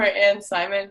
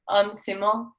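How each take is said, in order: First: The name has English-style vowel sounds. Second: The name has its native, non-English vowel sounds. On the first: "I prefer Anne Simon" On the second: "so it's not in Simon, it's it's uh, um on Simon"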